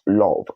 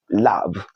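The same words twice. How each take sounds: First: "love" with a rounded aw, like "lawv"; mispronunciation. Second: "love" with a short open uh, like "lav"; correct pronunciation. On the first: Teacher showing learners what to avoid, mispronunciation. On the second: Teacher modelling the word for learners, correct pronunciation. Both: Shown as a demonstration. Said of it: "not love".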